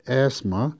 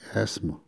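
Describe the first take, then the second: First: The middle consonant sounds like z. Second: The middle consonant sounds like s. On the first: "z로 합니다" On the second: "영어로는"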